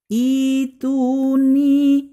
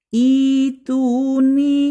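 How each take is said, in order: No difference in how they are said.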